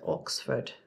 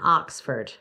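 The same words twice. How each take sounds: First: It is said in a British English accent. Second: It is said in a Southern American accent. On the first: "that sounds far lovelier" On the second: "we Southerners say socks and box and Oxford"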